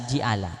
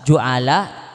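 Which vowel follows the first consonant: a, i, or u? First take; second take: i; u. First: The first vowel is i. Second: The first vowel is u. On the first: "dibaca kasrah" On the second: "Dibaca roma"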